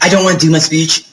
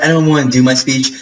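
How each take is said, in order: First: Lightly sassy imitation of a student; sassy retelling. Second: Said in the usual way. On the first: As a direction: quote her with a touch of sass. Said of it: "I'm just very sassy because I'm me". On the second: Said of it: "She didn't do it in a rude way".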